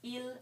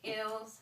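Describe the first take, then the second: First: The final S sound is not pronounced. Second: The final S sound is pronounced. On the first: The speaker calls it right. "In French, you do not pronounce that S" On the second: The speaker calls it wrong. "That is me pronouncing that in English"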